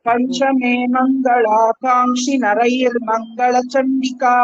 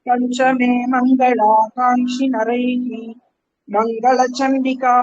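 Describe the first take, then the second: First: The word ends with an r sound, linked onward. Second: The word ends with an h sound, kept separate. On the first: "சேர்த்து ... இர்ரா சொல்லிடலாம் அந்த விசர்க்கத்தை" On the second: "பிரிச்சு சொல்லும் போது"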